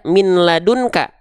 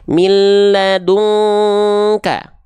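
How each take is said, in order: First: The n is kept before the l. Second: The n merges into the l. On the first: The speaker calls it wrong. "nggak dibaca" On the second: The speaker calls it right.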